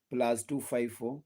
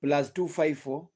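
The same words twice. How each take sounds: First: Spelling out the digits slowly, softer; slow, careful repeat of the number. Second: Slow number read. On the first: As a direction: say it again slowly so they can write it down. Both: Shown as a demonstration. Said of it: "my number is always public".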